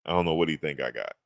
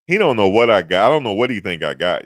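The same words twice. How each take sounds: First: Said in the usual way. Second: Much louder, emphatic rant; loud exclamation. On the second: Real, not acted. Streamer ranting to chat about a stranger, loud. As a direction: blurt it out, amused and loud.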